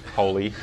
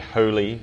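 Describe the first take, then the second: First: The word is said in a plain, everyday style. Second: The word is said in a formal, churchly style. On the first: This is how the word is normally said. "instead of holy" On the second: This is how priests say the word. "priests who say holy"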